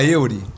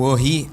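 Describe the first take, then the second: First: The name starts with an 'eu' sound, Portuguese style. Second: The name starts with an 'o' sound, French style. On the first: This is how people in Brazil read it. "o pessoal falava Eury, né, que é a pronúncia mais imediata" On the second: This is the family's original pronunciation. "o Orri é uma pronúncia francesa"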